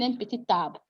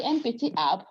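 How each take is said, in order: First: "un petit arbre" as peti-tarbre; with liaison. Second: "un petit arbre" with silent t in petit; without liaison. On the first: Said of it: "Why is she saying". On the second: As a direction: leave "arbre" starting on its vowel, no T. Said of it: "you're not supposed to be". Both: Shown as a demonstration.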